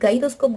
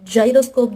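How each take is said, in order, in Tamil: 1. இந்த வார்த்தை hard g சவுண்டில் தொடங்குது. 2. இந்த வார்த்தை soft j சவுண்டில் தொடங்குது. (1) "இங்கே மட்டும் நம்ம ஏன் கு சொல்றோம்" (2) "ஜைரோஸ்கோப், ஜைனகாலஜி சொல்லாம"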